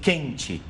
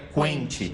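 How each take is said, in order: First: The u after the q is silent. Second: The u after the q is clearly pronounced. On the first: "se a gente falar assim" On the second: "Se colocasse o trema, eu falaria quente"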